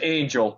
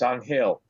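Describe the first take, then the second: First: The name is said with an English pronunciation. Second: The name is said with a Spanish pronunciation.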